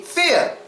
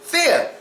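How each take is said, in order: First: The final R is dropped. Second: The final R is dropped.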